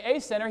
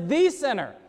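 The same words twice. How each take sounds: First: Said in the usual way. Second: "the sinner" with "the" lifted and leaned on; weight the word "the" before "sinner"; stress on the. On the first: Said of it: "he doesn't say". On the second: Shown as a demonstration. Preacher correcting the Greek, stressing "the". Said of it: "he says".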